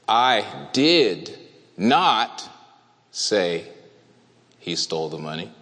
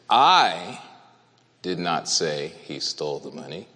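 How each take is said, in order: First: The stress falls on the word not. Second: The stress falls on the word I. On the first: It was definitely never said. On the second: Someone else said it. "I did not say it. That's what it means"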